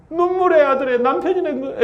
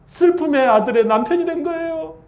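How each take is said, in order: First: High, breaking into a laugh mid-line; laughing at own slip. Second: Said in the usual way. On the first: Real, not acted. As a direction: laugh at the misspoken word "남편이". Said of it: "에이, 아니". (말실수에 웃음이 터지는 높은 목소리)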